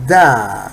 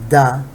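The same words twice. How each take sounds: First: The vowel is drawn out longer. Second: The vowel is held only briefly. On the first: "With long vowel" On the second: "with the short vowel"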